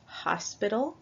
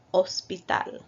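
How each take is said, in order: First: Hospital with the English H sounded. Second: Hospital with a silent H, spoken as ospital; Spanish hospital. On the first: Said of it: "So in English, you would say". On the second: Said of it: "we do not pronounce the H". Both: Shown as a demonstration.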